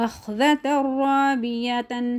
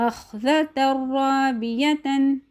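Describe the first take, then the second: No difference in how they are said.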